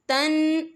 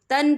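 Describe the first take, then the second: First: "तन" said with a light, thin ta; the wrong thin ta in "तन". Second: "तन" said with a heavy, thick tau; the right full tau in "तन". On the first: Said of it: "तन नहीं पढ़ना आपने". (बारीक ता वाला "तन") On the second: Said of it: "तन पढ़ना है". (मोटे तौ वाला "तन") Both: Shown as a demonstration.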